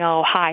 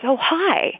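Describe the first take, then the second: First: The greeting sounds flat and offhand. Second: The greeting sounds warm and welcoming.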